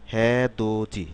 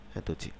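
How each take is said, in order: First: "হ্যাঁ দো জি" sounded out, t changed to j; careful teaching model "হ্যাঁ দো জি"; word pronunciation, stretched. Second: Softer, lower "হ্যাঁ দো জি" as one word; "হ্যাঁ দো জি" tossed off softly, syllables joined; word pronunciation, compact. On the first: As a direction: draw out "হ্যাঁ দো" and land on "জি". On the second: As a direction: repeat "হ্যাঁ দো জি" quietly with j before i. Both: Shown as a demonstration. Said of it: "কিরকম হবে".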